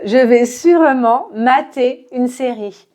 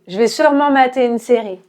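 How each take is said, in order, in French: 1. La phrase est dite à un rythme lent. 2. La phrase est dite vite, avec des voyelles escamotées.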